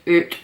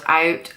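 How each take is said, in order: First: Out is said with a Scottish 'oo' vowel. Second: Out is said with a standard 'ow' vowel.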